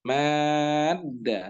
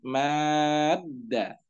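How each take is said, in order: First: The long vowel is held for six counts. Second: The long vowel is held for six counts.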